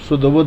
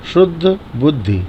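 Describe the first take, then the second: First: The final vowel of the second word is dropped. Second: The final vowel of the second word is pronounced. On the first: The speaker calls it wrong. "जल्दीबाजी में लोग शुद्ध बुद्ध शुद्ध बुद्ध बोल देते हैं" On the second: The speaker calls it right. "स्पष्ट बोलें, देख के बोलें"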